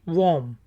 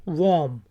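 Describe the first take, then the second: Both takes have the same delivery.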